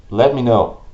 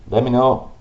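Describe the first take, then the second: No difference in how they are said.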